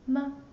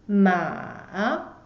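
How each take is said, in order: First: The syllable is short and light, unstressed. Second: The pitch dips down and then rises. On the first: "the light tone" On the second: "It goes down first and then go up"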